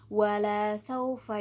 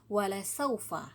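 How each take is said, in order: First: The second syllable has a long vowel. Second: The second syllable has a short vowel. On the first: The giving will not happen. "jika kita membacanya panjang" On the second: The giving will surely happen. "la pendek"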